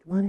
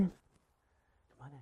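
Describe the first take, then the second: First: Said in the usual way. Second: Slow breathy whisper, much softer. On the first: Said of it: "first welcome take". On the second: Shown as a demonstration. Guest whispered in slowly at the door. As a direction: whisper the welcome, drawing it out slowly. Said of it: "whispered second take".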